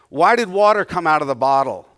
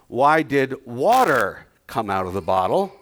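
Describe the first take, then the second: First: The word water is not stressed. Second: The word water is stressed. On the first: The question asks what made the water come out. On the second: The question asks why it was water that came out. "let me change the intonation of my question"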